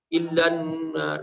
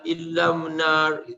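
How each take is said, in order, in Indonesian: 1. Bunyi n ada sebelum 'nar'. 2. Bunyi m ada sebelum 'nar'. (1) "padahal kan ilanar" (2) "non dia menjadi mim"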